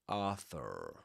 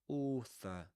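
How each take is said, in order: First: The word is said with an American accent. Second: The word is said with a British accent. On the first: "I think they would go for Arthur" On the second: "That O sound um, in British English"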